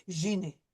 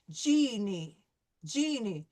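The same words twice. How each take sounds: First: "genie" with a soft French "zh" at the start, lower pitch. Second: "Genie" with a hard English J. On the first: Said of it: "But in French, I'm going to say". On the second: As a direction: start "Genie" with the tongue forward, a hard "dj". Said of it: "it's gonna be a harder sound". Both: Shown as a demonstration.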